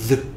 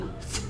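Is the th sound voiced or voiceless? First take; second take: voiced; voiceless. First: The th sound is voiced, with buzzing. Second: The th sound is voiceless, without buzzing. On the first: "떨리는 소리는 the" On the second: "떨리지 않는 소리는 the"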